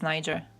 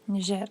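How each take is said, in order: First: The name is said with an English-style pronunciation. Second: The name is said with a French-style pronunciation. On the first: The speaker calls it wrong. "I always say it was Niger, but it's not" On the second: The speaker calls it right. "It makes sense that it's, yeah, French"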